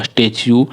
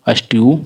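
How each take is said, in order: First: स्टैच्यू said "as-tech-yoo", with a "ch"; corrected स्टैच्यू. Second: अस्ट्यू said "as-tyoo", with a "ty" glide; mistaken अस्ट्यू. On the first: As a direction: say स्टैच्यू with a "ch" before the final "yoo". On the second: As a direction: say अस्ट्यू with T and "yoo" run together, no "ch". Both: Shown as a demonstration. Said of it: "अस्ट्यू नहीं".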